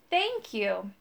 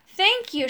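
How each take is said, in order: First: Put-on quieter old woman voice; second thanks, softer and breathier. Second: Breathless high thanks; gasping. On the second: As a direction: gasp the words out in relief. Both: A narrator's reading. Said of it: "she gasped".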